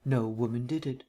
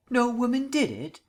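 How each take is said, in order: First: Said in the usual way. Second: Stunned, rising outrage at the claim; a high, loud, disbelieving repeat of DID; incredulous. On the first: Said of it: "murmured Vance, still smiling". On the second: Acted. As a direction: echo it back much higher and louder, in disbelief. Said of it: "Markham's gorge was rising rapidly".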